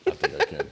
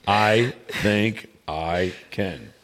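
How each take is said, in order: First: Said in the usual way. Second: Drawn out word by word; slow and deliberate. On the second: Pretend. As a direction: stretch every word with a gap between. Repeats it very slowly, word by word.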